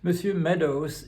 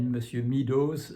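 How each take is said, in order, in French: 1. Meadows se prononce avec des sons anglais. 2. Meadows se prononce avec des sons français.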